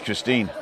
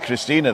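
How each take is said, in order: First: The final E is silent. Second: The final E is pronounced as a vowel. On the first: It is the way the name is spelled. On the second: It is the German way of saying the name.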